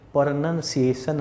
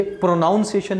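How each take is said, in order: First: Slow, spread-out "प्रोनंसिएशन", pro-nun-si-ation; short "nun" in "प्रोनंसिएशन", syllable by syllable; slow model of "प्रोनंसिएशन" without "ow"; correct short vowel. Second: "प्रोनाउंसिएशन" as pro-noun-si-ation; wrong model, "ow" in "प्रोनाउंसिएशन"; wrong "ow" vowel. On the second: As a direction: stress the mistaken "noun" in "प्रोनाउंसिएशन". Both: Shown as a demonstration. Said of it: "ये प्रोनाउंसिएशन नहीं".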